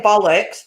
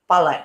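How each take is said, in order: First: Said in the usual way. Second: Southern English "Bollocks", short and quick; "Bollocks" in a southern English accent. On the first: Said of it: "I say bollocks". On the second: Shown as a demonstration. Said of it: "down south it sounds more how you said it".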